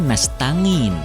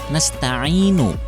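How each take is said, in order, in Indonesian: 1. Konsonan di tengah itu bunyi 'ng'. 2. Konsonan di tengah itu bunyi tenggorokan 'ain'. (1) "dibaca nastangin" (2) "membaca ain pada ayat nasta'inu"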